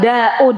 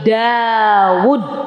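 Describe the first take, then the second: First: The name is said with an Indonesian pronunciation. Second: The name is said with an Arabic pronunciation. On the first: The speaker calls it wrong. "Dawud juga bukan Daud" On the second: The speaker calls it right. "tapi Dawud"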